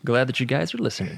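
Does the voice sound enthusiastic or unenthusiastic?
enthusiastic. It is said with lively, upbeat enthusiasm. The speaker calls it right.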